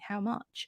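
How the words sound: The vowel in 'much' sounds like 'uh'. "แต่ว่าออกเสียงกลางๆแล้วกันเป็น"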